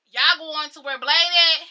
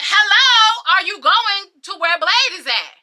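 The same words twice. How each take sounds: First: Slower, louder call to people ahead; calling after them. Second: Loud, high, pointed repeat of a question; insistent calling out. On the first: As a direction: call out a question, drawn out. Calls after people walking ahead. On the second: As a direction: call louder to people ignoring you. Repeats question to people ignoring her. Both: Retold or imitated.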